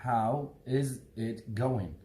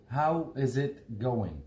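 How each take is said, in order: No difference in how they are said.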